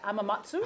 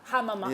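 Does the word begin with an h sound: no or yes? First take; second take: no; yes. First: The word starts without an h sound. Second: The word starts with an h sound. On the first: The speaker calls it wrong. "I'm not even going to try and pronounce that" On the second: The speaker calls it right. "there we go"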